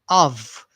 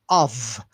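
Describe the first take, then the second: First: The word ends with a V sound. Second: The word ends with a V sound.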